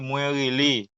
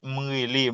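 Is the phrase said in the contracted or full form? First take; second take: full; contracted. First: Mwen is said in full before rele. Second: Mwen is shortened to m before rele.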